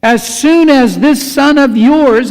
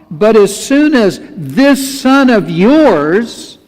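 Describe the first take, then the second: First: Louder, higher scornful "this son of yours"; contemptuous sneer. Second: Slowed, pointed "this son of yours"; slow angry complaint. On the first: Older son scorning his brother before their father, contemptuous and loud. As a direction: spit out "this son of yours" with disdain. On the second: Older son complaining to his father, slow and resentful. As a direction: drag the words out bitterly. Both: Retold or imitated. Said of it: "and I'm sure that's how he said it".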